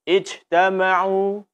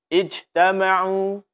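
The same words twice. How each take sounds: First: The jim is released loosely, sounding like sh. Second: The jim is released loosely, sounding like sh.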